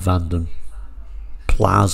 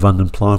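First: The name ends with an audible s sound. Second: The name ends without any s sound. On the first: The speaker calls it right. "I'm supposed to call it the Vanden Plas" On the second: The speaker calls it wrong. "I'm still going to call it the Vanden Pla because that's what I've always called it"

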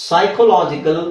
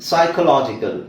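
The two takes are said the same way.

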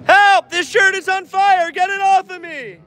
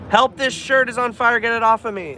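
First: The line is screamed loudly. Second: The line is said at a normal volume. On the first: The speaker calls it right. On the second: The speaker calls it wrong.

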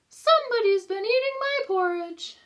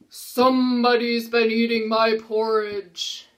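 First: It is said in Mama Bear's voice. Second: It is said in Papa Bear's voice.

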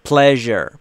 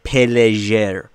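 First: The P and L join with no vowel between. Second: A vowel is inserted between the P and L. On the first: The speaker calls it right. "اینجا صدایی وجود نداره بین P و L" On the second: The speaker calls it wrong. "نباید بگیم pleasure"

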